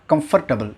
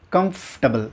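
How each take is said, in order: First: Comfortable as kum-FUR-ta-bul; mispronounced comfortable. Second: Comfortable as KUMF-ta-bul; only an F in the middle of Comfortable; correct comfortable. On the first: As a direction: put a vowel and R after F in comfortable. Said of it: "not comfortable". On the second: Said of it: "if sound சென்டர்ல இருக்கணும்". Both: Shown as a demonstration.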